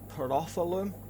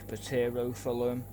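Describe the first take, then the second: First: The first consonant of the word is silent. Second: The first consonant of the word is sounded. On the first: The speaker calls it right. "the correct way to pronounce this species" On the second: The speaker calls it wrong. "I used to get it wrong quite a lot, so I used to say"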